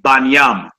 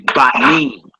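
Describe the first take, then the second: First: The word ends with a 'nyam' sound. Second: The word ends with a 'neem' sound. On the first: This is how people who ignore the vowel marks say it. "brothers that don't use vowels, they say Banyam" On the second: This is the usual way to say it. "you would say Banim"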